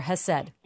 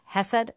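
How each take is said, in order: First: Hesed with the stress on SED; stress on second syllable. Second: Hesed with the stress on HE; stress on first syllable. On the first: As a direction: lean on the last syllable of hesed, asking. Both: Shown as a demonstration. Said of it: "am I saying it right?".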